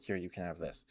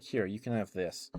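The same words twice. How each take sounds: First: Softer, offhand acted quote; nonchalant. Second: Said in the usual way. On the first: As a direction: hand it over like it's nothing, quietly. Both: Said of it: "kind of, like, nonchalantly".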